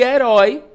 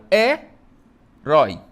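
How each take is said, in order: First: "herói" loud and in one piece; whole word. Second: "herói" as E, pause, RÓI; syllable separation. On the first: Teacher introducing the example word, loud unbroken "herói". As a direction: say "herói" strongly, without a break. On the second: Teacher separating the word for pupils, "herói" syllable by syllable. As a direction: break "herói" slowly into two syllables. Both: Shown as a demonstration. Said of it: "eu separo herói".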